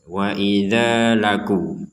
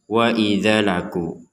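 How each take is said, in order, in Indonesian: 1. Vokal pada 'idza' dibaca panjang. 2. Vokal pada 'idza' dibaca pendek. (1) "dibaca dua harokat" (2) "jadi jangan dibaca wa idza laku"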